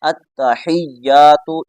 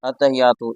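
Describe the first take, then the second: First: The middle consonants are held long and doubled. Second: The middle consonants are said short, not held. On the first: The speaker calls it right. "दोनों को पूरी तवज्जो से पढ़ें" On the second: The speaker calls it wrong. "या की शद भी छोड़ देते हैं और ता की शद भी छोड़ देते हैं"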